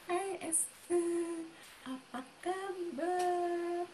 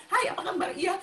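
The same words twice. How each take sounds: First: High, soft, very drawn-out greeting; mock-delicate slow hello; ultra-refined slow talker. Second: Brisk, higher-pitched greeting; demonstrating own quick chatty manner; quick talk. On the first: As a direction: imitate a dainty friend, stretching every word. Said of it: "Kalau dia nggak, gitu". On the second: Shown as a demonstration. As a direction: fire off a casual hello. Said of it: "cepet ya ngomongnya saya".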